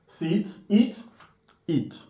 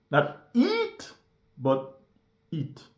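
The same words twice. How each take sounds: First: "eat" with a clipped short vowel; wrong vowel demo. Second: "eat" with a long held vowel, the right way; correct long eat. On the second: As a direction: stretch the ee in "eat". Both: Shown as a demonstration.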